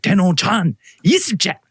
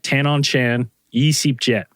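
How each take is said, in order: First: It is said in an exaggerated Thai-style accent. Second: It is said in a plain English-style accent. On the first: Locals understand it. The speaker calls it right. "I just feel like I'm being a little more racist with it" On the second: Locals do not understand it. The speaker calls it wrong. "if I said it like that, no one knew at all what you were talking about"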